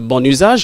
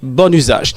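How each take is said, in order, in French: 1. Le N est lié au mot suivant. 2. Le N est séparé du mot suivant. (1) "il est préférable qu'on pas coller N avec U A pour ne pas faire bon usage" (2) "mais il est préférable qu'on dit bon usage"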